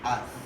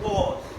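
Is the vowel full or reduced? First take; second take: reduced; full. First: The word has a reduced vowel. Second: The word has its full vowel. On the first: "and this becomes" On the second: "we come at the point"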